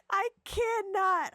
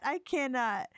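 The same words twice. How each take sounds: First: High, laughing disbelief; can't stop laughing. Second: Said in the usual way. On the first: Real, not acted. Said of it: "laughing at the game". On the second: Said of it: "settling after laughing".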